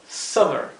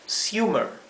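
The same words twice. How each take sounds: First: The first vowel is short and clipped. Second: The first vowel is a long "you" sound. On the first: "la doble M nos indica que esta vocal debe pronunciarse de una forma bien corta" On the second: "La U se pronunciaría U"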